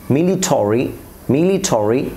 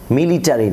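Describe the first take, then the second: First: "মিলিটারি" ending in "-tori", rising; corrected "মিলিটারি". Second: "মিলিটারি" with "-tari", open a; wrong "মিলিটারি". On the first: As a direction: round the a of "মিলিটারি" to o. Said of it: "অরিতে পরিণত করব". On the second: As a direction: say "মিলিটারি" as "militari". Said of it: "যেমন মিলিটারি না". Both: Shown as a demonstration.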